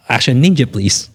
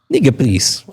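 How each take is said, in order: First: Laughing. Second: Said in the usual way. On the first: Real, not acted. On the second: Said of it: "There's no one time".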